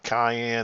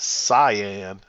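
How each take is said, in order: First: The word sounds like the pepper 'cayenne'. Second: The word sounds like 'sigh-an'. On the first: The speaker calls it wrong. "It's not cayenne" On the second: The speaker calls it right. "it's cyan"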